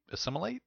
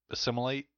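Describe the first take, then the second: First: "assimilate?" asked with a high unsure rise; "assimilate?" asked quietly with a rising pitch, doubting the word; unsure question. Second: Said in the usual way. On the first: Shown as a demonstration. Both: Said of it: "Is that the right word?".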